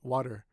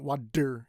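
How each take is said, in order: First: The middle T is a soft D-like tap. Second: The middle T is a hard, clear T. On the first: The speaker calls it right. "a soft D" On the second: The speaker calls it wrong. "so not water. You don't want water"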